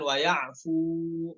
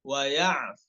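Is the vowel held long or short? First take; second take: long; short. First: The vowel is held long, two beats. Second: The vowel is held short. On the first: The speaker calls it wrong. "bukan dua harokat" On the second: The speaker calls it right. "namun pendek ya"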